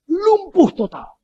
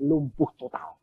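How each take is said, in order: First: Much higher, louder and slow; preacher's dramatic repeat; emphatic repeat. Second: Said in the usual way. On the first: Retold or imitated. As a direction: hammer the words home.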